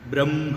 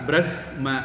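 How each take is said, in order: First: The m sound comes before the h. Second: The h sound comes before the m. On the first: The speaker calls it right. "சரியா உச்சரிக்கிற முறை பிரம்ம அப்படின்னு உச்சரிக்கிறது தான் correct" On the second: The speaker calls it wrong. "எழுதுறது நம்ம பிரஹ்ம அப்படிதான் எழுதுவோம்"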